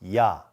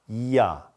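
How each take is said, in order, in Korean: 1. 하나의 음절로 합쳐서 발음해요. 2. 두 개의 빠른 음절로 발음해요. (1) "한 글자처럼 하면" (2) "좀 더 빨리"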